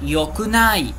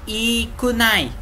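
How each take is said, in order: First: The word begins with a 'yo' sound. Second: The word begins with an 'ee' sound. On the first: The speaker calls it right. "no japonês a gente fala yokunai" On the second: The speaker calls it wrong. "O outro seria ikunai, né? Mas não"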